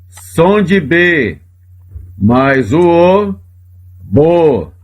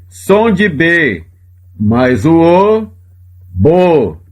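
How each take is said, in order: No difference in how they are said.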